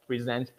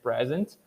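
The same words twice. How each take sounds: First: "present" stressed on the second syllable, preZENT; verb stress. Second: "present" stressed on the first syllable, PREsent; noun stress. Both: Shown as a demonstration. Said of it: "written the same way".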